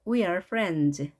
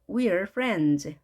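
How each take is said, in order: No difference in how they are said.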